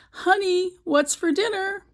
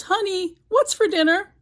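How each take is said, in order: First: Said in the usual way. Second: Yelling across the house. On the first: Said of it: "He goes right up behind her and says". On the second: Retold or imitated. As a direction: call out to a wife in another room. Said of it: "So he yells".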